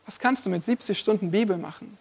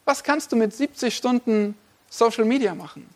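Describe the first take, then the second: First: A softer, weighty second question; preacher lowering his voice to let the contrast land; quiet. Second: Said in the usual way. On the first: Acted. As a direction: drop the voice right down for the Bible question. Rhetorical contrast, answer question.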